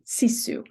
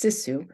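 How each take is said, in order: First: "sisu" said with a long, tense "ee" first vowel; Finnish pronunciation. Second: "sisu" said with a short, lax "i" in the first syllable; local pronunciation. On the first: Lecturer giving the standard word before the local one, "sisu" as SEE-soo. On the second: Lecturer showing how it is locally pronounced, "sisu" as SISS-oo. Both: Shown as a demonstration. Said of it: "or what's locally pronounced".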